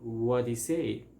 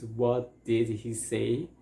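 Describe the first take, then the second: First: Did is dropped, leaving a flapped D-like sound. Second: Every word, including did, is pronounced in full.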